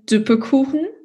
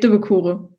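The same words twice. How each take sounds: First: It is said in standard German. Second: It is said in the local Cologne accent.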